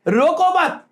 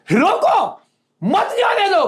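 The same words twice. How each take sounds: First: रोको मत run together, pitched higher; positive reading, pause after मत. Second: High falling रोको, then मत जाने दो together; negative reading, pause after रोको. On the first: Sparing the little brother, pause after मत. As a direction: join रोको to मत, then stop. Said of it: "अगर इसको पॉजिटिवली लेंगे". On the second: Ordering the bandit stopped, pause after रोको. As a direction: break sharply after रोको, pitch both parts high. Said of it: "ये negativity में जाएगा". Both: Shown as a demonstration.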